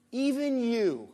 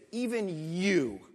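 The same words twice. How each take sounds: First: "even you" punched, louder and higher; "even you" as a loud punchy accusation; stress on even. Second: "even you" drawn out slowly, stress on "even"; measured, deliberate "even you". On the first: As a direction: hit "even" hard. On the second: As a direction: let "even" land slow and heavy. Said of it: "he said, even you". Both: Shown as a demonstration.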